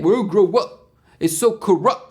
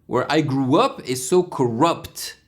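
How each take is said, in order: First: It is said in a British accent. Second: It is said in an American accent.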